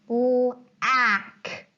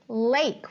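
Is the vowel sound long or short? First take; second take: short; long. First: The vowel is a short A sound. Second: The vowel is a long A sound. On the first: The speaker calls it wrong. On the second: The speaker calls it right.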